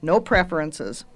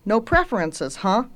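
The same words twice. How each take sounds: First: "No preferences" stated with a final falling tone; confirming answer. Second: "No preferences" lifted, with a questioning "huh"; "No preferences" in a raised, querying voice. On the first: Girl confirms the witch's question. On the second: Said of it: "asked the witch". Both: A narrator's reading.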